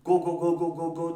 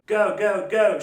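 First: "go" rapid with a flat Turkish "o"; string of short pure-vowel "go"; wrong pure O. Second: "go" as a punchy "guh-oo"; louder British "go" with a central glide. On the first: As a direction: mispronounce each "go" without a glide. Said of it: "diye bir şey demiyor". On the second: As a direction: fire off each "go" as "göu". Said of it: "Ne diyor?". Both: Shown as a demonstration.

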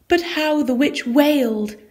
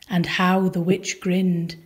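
First: Pitched higher, as if wailing; a high storyteller's wail; wailing lift. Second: Said in the usual way. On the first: A narrator's reading. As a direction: let the line rise into a wail. Witch grins, then wails.

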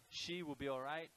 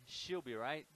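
First: Said in the usual way. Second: "She'll be right" squeezed into three quick words; casual Australian contraction of "She'll be right"; said quickly, contracted. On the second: Shown as a demonstration. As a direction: run "She'll be right" together, with "will" shrunk to 'll and "all" dropped. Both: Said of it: "said quite quickly".

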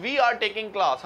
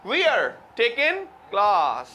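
First: Said in the usual way. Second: We are run into wear, taking with no g; British-style blend. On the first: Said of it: "हम कहते हैं". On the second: Shown as a demonstration. Teacher contrasts the British version with the Indian one. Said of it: "वो कहते हैं".

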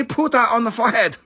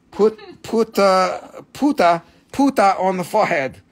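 First: Puta said fast with a final a; mocking his own puta; quick puta. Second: Mock accent puta on the forehead; puta for put. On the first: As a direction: rattle off puta on the forehead. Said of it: "You see?". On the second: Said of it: "Puta. You see?". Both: Shown as a demonstration.

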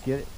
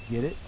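Both takes have the same delivery.

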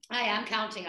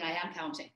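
First: Said in the usual way. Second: Quiet. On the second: Real, not acted.

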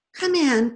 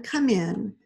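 First: Loud, higher come in called across the hall; second twin hurrying downstairs, calling them in; thin ordering call. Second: Said in the usual way. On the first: A narrator's reading. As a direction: call the order as she hurries down. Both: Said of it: "ordered in a thin voice".

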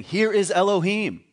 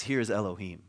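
First: "is" lifted higher and louder, slowed; stress on is. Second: Said in the usual way. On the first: Shown as a demonstration. Preacher driving home the Hebrew wording, stressing "is". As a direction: lean hard on "is" in "Here is Elohim". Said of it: "but he's saying". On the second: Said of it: "That's not what it says. It says".

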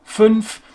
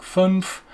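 First: "Fünf" with a true umlaut ü; correct German Fünf. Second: "fünf" with a plain English u, no umlaut; English-style fünf. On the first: Teacher shows the correct word, "Fünf" with German ü. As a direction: round the lips for the ü in "Fünf". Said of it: "would be the correct pronunciation". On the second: Teacher imitates an English learner, "fünf" without the umlaut. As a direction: flatten the ü of "fünf" into an English vowel. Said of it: "An English person will probably say something more like". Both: Shown as a demonstration.

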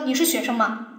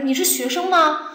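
First: “你是学生吗？” said low and level, with no rise on 吗; flat question. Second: “你是学生吗？” said with the pitch rising on 吗; rising question tune. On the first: Teacher showing students the wrong way, flat and low. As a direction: let “你是学生吗？” sink flat, like a statement. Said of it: "你不是说". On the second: Teacher showing students the right question tune, rising at the end. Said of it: "肯定是这样". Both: Shown as a demonstration.

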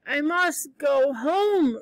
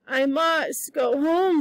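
First: Slow, dull, stubborn repeat; dull but determined. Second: Slow, dull insistence; slow stubborn repeat. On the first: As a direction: drag it out, stupid but stubborn. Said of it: "repeated Diana stupidly but determinedly". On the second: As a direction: say it slowly, stubborn and dazed. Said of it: "said Diana". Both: Acted.

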